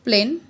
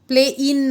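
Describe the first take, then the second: First: The vowels blend into one long syllable. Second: The vowels are split into two separate syllables. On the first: The speaker calls it right. "So प्लेन" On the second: The speaker calls it wrong. "प्ले इन नाही म्हणत आपण"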